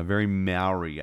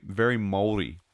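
First: MAORI said "MOW-ree", first part like "now"; common English pronunciation. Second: MAORI with a tapped r, like "MOHL-dee"; Maori pronunciation. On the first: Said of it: "as some people may know it". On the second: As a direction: say "Maori" the native way, quick tapped r. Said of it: "very Maori, as, as some people may know it". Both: Shown as a demonstration.

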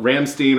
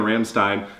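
First: Rammstein ending like "steen"; Rammstein, second syllable rhyming with "seen"; Rammstein as "ram-STEEN". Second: Rammstein ending like "stine"; Rammstein, second syllable rhyming with "fine"; Rammstein as "ram-STINE". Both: Shown as a demonstration.

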